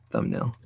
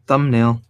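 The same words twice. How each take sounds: First: Very low, soft mumble; barely voiced, under the breath; speaking too low. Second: Said in the usual way. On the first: Real, not acted. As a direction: say it low, almost to yourself. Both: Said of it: "if I speak too low".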